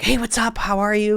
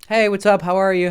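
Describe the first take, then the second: First: It sounds eager and overly excited. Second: It sounds casual and only mildly interested.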